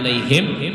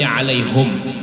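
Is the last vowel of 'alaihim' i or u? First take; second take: i; u. First: The final syllable is said with an i vowel. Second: The final syllable is said with a u vowel. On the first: This is the common reading. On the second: This is the reading of another reciter's tradition.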